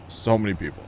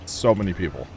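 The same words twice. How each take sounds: The two takes are said the same way.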